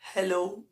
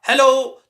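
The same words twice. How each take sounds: First: It is said softly and quietly. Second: It is said loudly with force.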